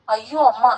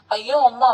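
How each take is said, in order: First: Mildly calmed, pleading; understated protest, anguish easing; frenzy subsided. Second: Mild, narrated cry of anguish; a touch of a wail. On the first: Son gently protests to his mother, calmer. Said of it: "அவன் குரலில் முன் போன்ற வெறி இல்லை". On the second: Son cries out to his mother, wailing. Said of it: "என்று அலறினான்". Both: A narrator's reading.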